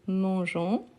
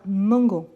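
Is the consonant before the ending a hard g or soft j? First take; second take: soft j; hard g. First: The middle consonant is a soft j sound. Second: The middle consonant is a hard g sound. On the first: The speaker calls it right. "avec le son de jon et pas gon" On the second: The speaker calls it wrong. "pour ne pas avoir mangon"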